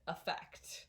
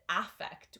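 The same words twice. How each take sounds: First: The first vowel is a reduced 'eh' sound. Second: The first vowel is a full 'ah' sound. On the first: The speaker calls it right. "we pronounce it affect. Um, so the stress is on the second part of this word. So this vowel sound is diminished. So it's not an ah, it's an eh" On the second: The speaker calls it wrong. "we don't pronounce it affect"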